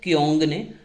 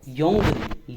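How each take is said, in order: First: The word begins with a k sound. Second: The word begins with a y sound. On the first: The speaker calls it wrong. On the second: The speaker calls it right.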